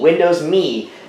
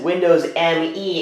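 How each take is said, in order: First: The name ends with one single spoken word. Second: The name ends with two separate letters spoken. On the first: "pronounce it as the word me, just me" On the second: "he always said Windows M E"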